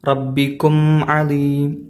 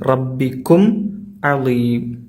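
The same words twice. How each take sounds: First: The m is blended into the next word. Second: The m is pronounced clearly and distinctly. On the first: The speaker calls it wrong. "കൂട്ടി ഓതിയാൽ ... ആ ഇൽഹാർ പോവും ... അത് തെറ്റാണ്" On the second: The speaker calls it right. "അവിടെ മീമിനെയാണ് നമ്മൾ വ്യക്തമായി ഉച്ചരിക്കേണ്ടത്"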